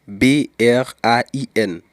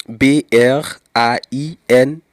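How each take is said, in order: No difference in how they are said.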